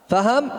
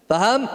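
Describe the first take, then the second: No difference in how they are said.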